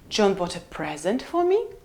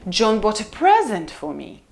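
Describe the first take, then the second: First: The pitch falls then rises on present. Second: The pitch rises then falls on present. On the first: "Or we can have full rise" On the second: "So it goes up and down"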